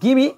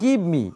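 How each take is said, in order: First: The words are run together as gimme. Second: Both words are said separately and in full.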